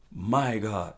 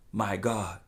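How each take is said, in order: Both takes have the same delivery.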